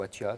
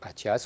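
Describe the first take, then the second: First: The name ends without any s sound. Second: The name ends with an audible s sound. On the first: The speaker calls it wrong. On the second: The speaker calls it right.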